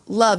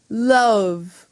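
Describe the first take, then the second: First: The vowel is plain and unrounded. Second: The vowel is rounded out at the end. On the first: "it's not love" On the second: "he rounds out the O's at the end"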